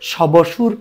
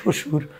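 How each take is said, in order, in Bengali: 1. প্রথম ব্যঞ্জনের পরে একটি আলাদা 'b' ধ্বনি শোনা যায়। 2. 'b' ধ্বনি নেই; বরং ব্যঞ্জনটি দ্বিত্ব হয়। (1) "শবসুর কে উচ্চারণ করি না" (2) "করি শ্বশুর"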